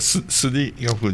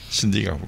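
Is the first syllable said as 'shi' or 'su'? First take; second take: su; shi. First: The first syllable is said as 'su'. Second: The first syllable is said as 'shi'. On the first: The speaker calls it wrong. "スディガフじゃなくて" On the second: The speaker calls it right. "シディ"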